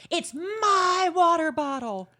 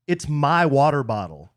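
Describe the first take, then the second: First: Slow, high, drawn-out MY; hammed-up protest, hitting MY hard and long; exaggerated retort. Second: Mildly annoyed retort, stress on my; understated scripted annoyance; clearly annoyed. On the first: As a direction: stretch "my" high in a mock indignant re-enactment. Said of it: "you know how I said it too". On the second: Acted. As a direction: lean on "my" in mild acted irritation. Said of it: "clearly annoyed at A E's request".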